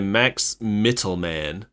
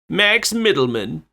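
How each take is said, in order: First: The surname has a crisp, distinct T sound. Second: The surname sounds like the word middleman. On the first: "I say it like that so it doesn't sound like middleman" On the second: "I guess it's Middleman"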